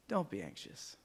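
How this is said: It is said in a soft, reassuring tone. The speaker calls it right. "The tone is"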